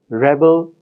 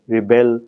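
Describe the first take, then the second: First: The stress is on the first syllable. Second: The stress is on the second syllable. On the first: It is the noun. "In the noun, the stress falls on the first syllable" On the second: It is the verb. "in the verb rebel, the stress falls on the second syllable"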